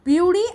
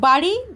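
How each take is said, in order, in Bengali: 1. শব্দটি 'byuri'-এর মতো শোনায়, 'y' গ্লাইড সহ। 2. শব্দটি 'bari'-এর মতো শোনায়, 'y' গ্লাইড ছাড়া।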